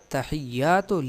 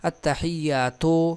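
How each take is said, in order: First: The word ends in a short u vowel. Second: The word ends in a long o-like vowel. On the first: The speaker calls it right. "हालांकि अत्तहियातु लिल्लाहि" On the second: The speaker calls it wrong. "यानी ता के साथ वाव लगाते हैं"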